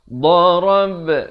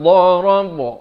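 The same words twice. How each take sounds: First: The final b bounces with flat, unrounded lips. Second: The final b bounces with rounded lips. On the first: The speaker calls it right. "qalqalah ba, jim dan dal pepeskan" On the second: The speaker calls it wrong. "Jangan bulatkan jadi darab. Itu tak betul"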